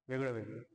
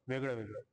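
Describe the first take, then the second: The two takes are said the same way.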